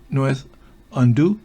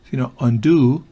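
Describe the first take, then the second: First: The vowel is said short. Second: The vowel is said long. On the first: The speaker calls it wrong. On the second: The speaker calls it right.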